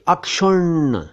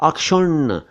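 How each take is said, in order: No difference in how they are said.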